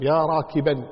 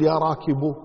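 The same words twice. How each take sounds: First: "يا راكبا" ending in -an, rakiban; accusative tanween ending. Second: "يا راكب" ending in an open -u, rakibu; wrong damma ending. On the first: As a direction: end "راكبا" on a clear -an. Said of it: "تنصب". (نطق "يا راكبا" بتنوين الفتح: راكبًا) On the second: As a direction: end "راكب" on u with no n. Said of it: "ما تقول". (نطق "يا راكب" بالضم دون تنوين: راكبُ) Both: Shown as a demonstration.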